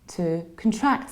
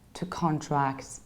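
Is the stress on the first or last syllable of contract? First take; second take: last; first. First: The stress is on the last syllable. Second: The stress is on the first syllable. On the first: It is used as a verb. The speaker calls it right. "it shifts from the very beginning to the very end" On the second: It is used as a noun. The speaker calls it wrong. "we can't say here to contract because that was a noun"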